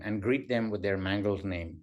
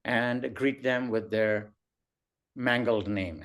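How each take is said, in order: First: Said in the usual way. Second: Slow, spaced dictation of "and greet them with their mangled name"; slow dictating voice. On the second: Shown as a demonstration. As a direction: read "greet" and "mangled" out slowly, word by word, for typing.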